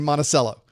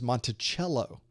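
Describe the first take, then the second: First: It is pronounced the way Floridians say it. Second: It is pronounced the way Virginians say it. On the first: The speaker calls it wrong. "In Florida, we say Monticello" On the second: The speaker calls it right. "even though that's how you should say it"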